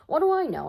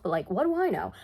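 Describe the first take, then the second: First: "What do I know?" repeated higher and louder, mock outrage on "do"; mock exasperated repeat. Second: Said in the usual way. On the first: Real, not acted. Joking to viewers that she knows nothing of magic, higher and louder. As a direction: throw "What do I know?" up high with a punch on "do".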